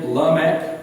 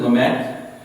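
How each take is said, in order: First: Lamech said la-MEKH, stress on the last syllable; Hebrew Lamech. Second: Lamech said LEM-ek, stress on the first syllable; West Virginia Lamech. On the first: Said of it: "the emphasis is always on the last syllable". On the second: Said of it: "we speak West Virginia". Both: Shown as a demonstration.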